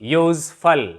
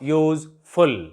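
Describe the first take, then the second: First: The last syllable has a short, reduced vowel. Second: The last syllable is a full 'full' sound. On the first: The speaker calls it right. "It's pronunciation becomes फल instead of फुल" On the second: The speaker calls it wrong. "Not"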